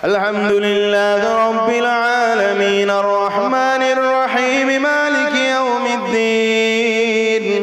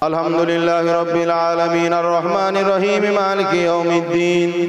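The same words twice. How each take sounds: First: It is recited with a rising, falling wave-like melody. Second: It is recited dryly with a flat, plain tune.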